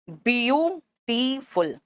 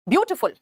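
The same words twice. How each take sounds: First: "beautiful" drawn out slowly as bi-yu-ti-ful; broken into syllables. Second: Said in the usual way. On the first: Shown as a demonstration. Teacher splitting a word for students, slow syllable by syllable. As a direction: leave clear gaps between the syllables of "beautiful". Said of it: "अब इसको शब्द के खंड में तोड़ोगे". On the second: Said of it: "शब्द के खंड में तोड़ोगे".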